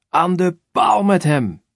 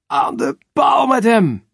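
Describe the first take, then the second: First: High, slow, loud mob shout; crowd shouting. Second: Very high, loud, slow hysterical chant. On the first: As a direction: bellow it out slowly like a crowd demanding death. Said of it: "Het volk schreeuwt". (trage, luide schreeuw van het volk) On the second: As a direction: chant it like a frenzied mob. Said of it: "scandeert de hysterische menigte". (chanted, hysterisch scanderende menigte) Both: Acted.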